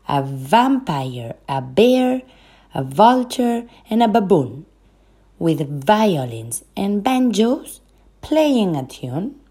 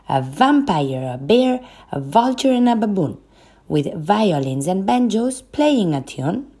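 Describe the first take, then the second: First: It is spoken at a moderate pace. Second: It is spoken at a fast pace.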